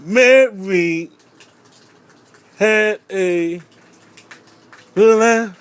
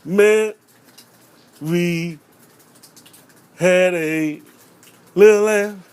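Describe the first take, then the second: First: Put-on louder stumbling kid recital. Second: Put-on stumbling kid recital. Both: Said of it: "talking about".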